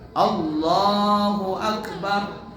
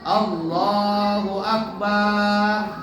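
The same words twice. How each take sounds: First: No vowel is drawn out long. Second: The ba syllable is drawn out long. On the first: The speaker calls it right. "mengucapkannya harus benar" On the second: The speaker calls it wrong. "Atau ba-nya panjang"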